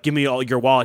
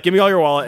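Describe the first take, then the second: First: Said in the usual way. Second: Higher, louder thug demand; dim henchman. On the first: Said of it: "when he's like". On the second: Retold or imitated. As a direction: bark it like a dumb mugger. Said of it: "so he'd be like".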